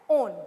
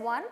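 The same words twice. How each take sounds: First: It does not sound like the number one. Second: It sounds like the number one. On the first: The speaker calls it right. "but it is being pronounced as -one" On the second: The speaker calls it wrong. "It is not pronounced as one"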